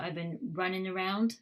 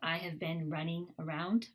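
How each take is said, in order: First: The final g sound of running is dropped. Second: The final g sound of running is pronounced. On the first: "we often drop the G sound" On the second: "instead of"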